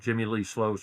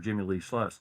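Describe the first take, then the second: First: The surname has an 'oh' vowel. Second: The surname has an 'uh' vowel.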